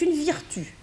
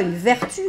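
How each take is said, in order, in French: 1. La première voyelle se prononce comme un i. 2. La première voyelle se prononce comme un e français simple.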